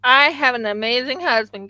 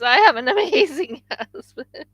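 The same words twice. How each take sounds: First: Said in the usual way. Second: Laughing. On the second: Real, not acted. Repeats with laugh, higher.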